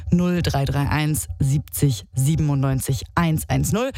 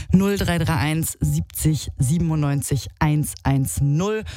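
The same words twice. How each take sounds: The two takes are said the same way.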